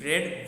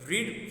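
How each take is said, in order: First: It is said with a short 'e' vowel. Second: It is said with a long 'ee' vowel. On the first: It is the past participle of the verb. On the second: It is the base form of the verb.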